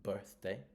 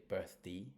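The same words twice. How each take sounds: First: "birthday" stressed as BIRTH-day; full DAY but weight on BIRTH in "birthday"; first-syllable stress. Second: "birthday" said as BIRTH-dee; "birthday" British-style, ending in an ee sound; British reduced ending. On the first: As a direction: hit the first half of "birthday". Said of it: "gonna go on the first syllable". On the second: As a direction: shrink the DAY of "birthday" to a short "dee". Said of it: "some British people even say". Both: Shown as a demonstration.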